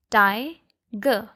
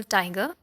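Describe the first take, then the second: First: "ti-ge" as two separate beats, a pause between; teacher breaking "ti-ge" in two; split into syllables. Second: Said in the usual way. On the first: Shown as a demonstration. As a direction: sound out "ti-ge" syllable by syllable. Demonstrates the two vowel sounds.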